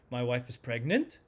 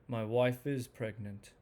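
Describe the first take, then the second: First: It sounds unsure, with pitch rising like a question. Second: It sounds mellow and calm, like a plain statement. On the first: The listener doubts they heard it correctly. "with uncertainty, the pitch rises up as almost as if it's a question" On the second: This is simply a fact being reported. "this very mellow statement, not strong, just mellow"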